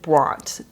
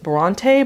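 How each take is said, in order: First: The name is said with one syllable. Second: The name is said with two syllables. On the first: This is how the locals say it. "just like one syllable" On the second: This is how the spelling suggests it is said. "it looks like it should be pronounced Bronte"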